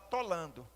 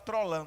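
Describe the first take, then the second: First: The word begins with a plain t, no r. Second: The word begins with a t followed by r. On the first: "ela fala tolando" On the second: "ela não fala trolando"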